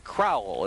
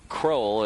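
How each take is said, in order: First: The surname is said as two syllables. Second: The surname is said as one syllable. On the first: The speaker calls it right. "Randy Crowell is the way to pronounce the pitcher's name" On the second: The speaker calls it wrong. "we've been calling the pitcher Randy uh, Kroll"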